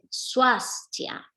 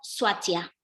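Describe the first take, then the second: First: The S before the T is clearly sounded. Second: The S before the T is left out. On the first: The speaker calls it right. "No hay que olvidarse de esa S" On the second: The speaker calls it wrong. "comiéndose esa S"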